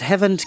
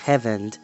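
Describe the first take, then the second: First: The name has a harsh, throaty sound in it. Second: The name is said with plain, soft sounds. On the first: The speaker calls it right. "gives it more of a C H V sound" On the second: The speaker calls it wrong. "you would think it'd be Hevend"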